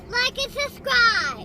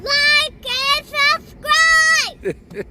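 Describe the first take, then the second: First: It is said fairly quietly. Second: It is said loudly.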